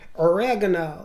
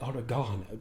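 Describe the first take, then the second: First: It is said with an American pronunciation. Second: It is said with a British pronunciation.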